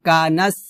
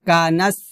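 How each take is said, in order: Both takes have the same delivery.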